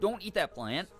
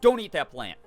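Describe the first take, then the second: First: It is said mildly, without any snap. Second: It is said sharply, with a firm snap. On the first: The listener feels free to ignore it. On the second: The listener is expected to obey right away.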